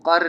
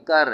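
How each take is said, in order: First: कर with a heavy q from the throat; wrong throaty q. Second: कर with a light k, no throat. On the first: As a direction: say कर as qar, k made far back. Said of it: "गले से आवाज़ नहीं, भारी आवाज़ नहीं निकालेंगे". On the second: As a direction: say कर as kar, an ordinary k. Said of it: "ये कर नहीं इसको बोलेंगे". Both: Shown as a demonstration.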